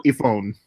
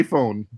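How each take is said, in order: First: IPhone with the I shrunk to "ih", ih-phone; deadpan "ih-phone" for iPhone; joke short-I iPhone. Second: IPhone with a full EYE at the front; usual iPhone. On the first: Joking back when asked what phone, short-I iPhone. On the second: Putting the joke right, long-I iPhone. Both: Shown as a demonstration. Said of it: "you say I and then the word after it".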